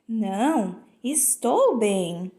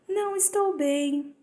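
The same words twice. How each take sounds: First: There is a pause after the first word. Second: The words run together without a pause. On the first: The person is well. "após uma vírgula" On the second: The person is not well. "Na primeira, nós entendemos que a pessoa não está bem"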